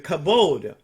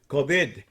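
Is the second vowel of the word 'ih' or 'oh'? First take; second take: oh; ih. First: The second vowel sounds like 'oh'. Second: The second vowel sounds like 'ih'. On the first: "which means glory" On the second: "he pronounced kabid"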